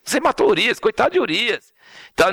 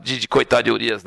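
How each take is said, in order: First: "coitado de Urias" said higher in a pitying singsong; mock pity. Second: Said in the usual way. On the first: Shown as a demonstration. Preacher showing the pity the text doesn't voice, mock pitying. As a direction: put on a fake sorry-for-him tone for "coitado de Urias". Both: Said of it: "não tô falando nada de coitado de Urias".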